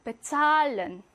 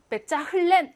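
First: "베찰렌" with a long A and no H; German "베찰렌", H silent, A drawn out; silent H, long vowel. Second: "베짜 흘렌" with the H sounded; H pronounced. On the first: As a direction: stretch "찰" in "베찰렌". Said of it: "모음을 길게 만들어줍니다". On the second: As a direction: say "베짜 흘렌", breaking in an audible H. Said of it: "하지 않고". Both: Shown as a demonstration.

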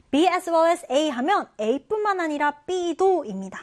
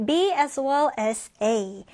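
First: Slow, slightly higher B as well as A; slow teaching read. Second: B as well as A drawn out very slowly; very slow model phrase. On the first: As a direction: explain it slowly to students. (천천히 설명) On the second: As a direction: lay out each word slowly. (아주 천천히) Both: Shown as a demonstration. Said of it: "다음 표현 같이 볼게요".

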